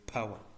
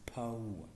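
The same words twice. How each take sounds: First: The vowel is reduced, not a full triphthong. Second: The vowel is a full three-part triphthong. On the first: The speaker calls it wrong. "It is not correct phonetically when you say power" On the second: The speaker calls it right. "but it is power"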